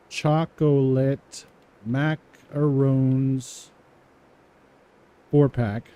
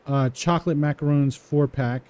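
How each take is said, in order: First: Each word drawn out slowly while typing; slow dictation. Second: Said in the usual way. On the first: Shown as a demonstration. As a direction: spell it out slowly as you type. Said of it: "typing slowly after reading it". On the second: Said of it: "slow dictation follows".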